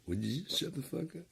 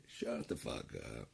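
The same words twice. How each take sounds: First: Much higher, squeaky mock demand; squeaky mock yell. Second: Low, slow mutter. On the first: Streamer squeaking at the chat in mock annoyance. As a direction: squeak it out in jest. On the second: Pretend. Low variant.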